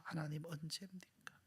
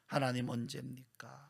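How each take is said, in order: First: 하나님, 언제입니까 whispered much softer; whispered plea. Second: Said in the usual way. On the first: Acted. Sufferer pleading with God, whispered.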